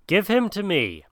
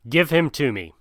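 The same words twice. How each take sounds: First: Raised clamor. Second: Said in the usual way. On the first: Acted. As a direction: Give him to me! pitched much higher, urgent. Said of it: "clamored Shere Khan".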